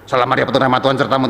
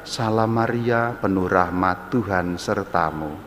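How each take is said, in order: First: It is rattled off quickly without any feeling. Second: It is said slowly and with heartfelt feeling. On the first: The person is only reciting a formula. The speaker calls it wrong. "yang kedua mengucapkan" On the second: The person is truly praying. The speaker calls it right. "Contohnya hatinya mengatakan"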